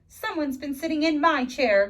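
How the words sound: It is said in a gasping, surprised voice.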